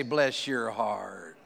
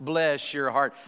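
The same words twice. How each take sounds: First: Low, slow Southern bless your heart; drawn-out, lowered Southern blessing. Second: Said in the usual way. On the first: Retold or imitated. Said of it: "they say this all the time". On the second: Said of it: "Y'all say that up here in Ohio".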